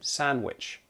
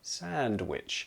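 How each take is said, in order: First: Said casually with the D sound dropped. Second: Said slowly with the D sound pronounced. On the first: "I will often omit that D, drop that D, and just say sandwich" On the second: "when I say it slowly, I do pronounce the D"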